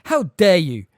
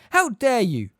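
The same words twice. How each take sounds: First: Loud, outraged cry while running; furious shout. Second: Higher, loud outraged cry; furious shout. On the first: McGonagall running at Hagrid's attackers, furious shout. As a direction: shout at the attackers as you charge. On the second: McGonagall charging the attackers, higher furious shout. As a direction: yell it again, still running. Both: A narrator's reading. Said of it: "the figure shouted as she ran".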